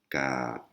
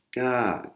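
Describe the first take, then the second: First: "ka" on a low tone. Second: "ka" pitched high, Thai high tone. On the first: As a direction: say "ka" low and level, Thai low tone. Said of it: "qui est une intonation basse". (« ka » sur un ton bas) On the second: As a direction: lift "ka" well above the usual voice. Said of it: "qui est une intonation haute". (« ka » sur un ton haut, aigu) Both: Shown as a demonstration.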